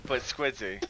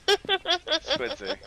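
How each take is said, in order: First: Said in the usual way. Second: Much higher, giggling through the name; high laughing squeak. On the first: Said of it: "Squidzy (laughing retake)". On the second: Shown as a demonstration.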